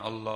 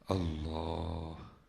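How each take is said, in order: First: It is said harshly, forced from the throat. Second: It is said softly and sweetly.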